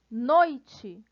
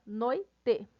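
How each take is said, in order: First: Said in the usual way. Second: "noite" split as noi-te, full final e; split into syllables. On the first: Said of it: "o I na mesma sílaba". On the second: Shown as a demonstration. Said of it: "na mesma sílaba".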